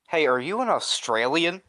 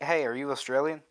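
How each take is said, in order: First: It is asked with heavy, accusing emphasis. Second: It is asked in a casual, neutral way.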